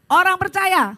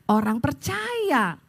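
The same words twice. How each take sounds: First: Loud, higher congregational answer; energetic, emphatic declaration; rousing call. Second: Said in the usual way. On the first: Real, not acted. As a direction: shout it out to lift a limp crowd. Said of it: "sekarang jangan lemes". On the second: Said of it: "saudara lemes banget".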